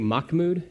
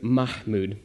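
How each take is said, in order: First: The name is said with English sounds. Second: The name is said with Arabic sounds. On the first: The speaker calls it wrong. "you probably heard me say Mahmoud, and that's okay. I didn't" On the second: The speaker calls it right. "you can't do that because it's not English"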